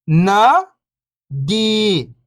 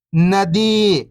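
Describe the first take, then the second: First: First syllable lifting, pause, second falling. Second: Whole word, level then falling at the end; syllables blended. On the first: Teacher breaking a word down for beginning readers, syllable by syllable. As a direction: sound out each syllable alone, long and separated. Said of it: "एक अक्षर का उच्चारण करके". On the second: Teacher showing beginners the joined word, syllables blended. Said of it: "इनको आपस में लाके पढ़ना है". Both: Shown as a demonstration.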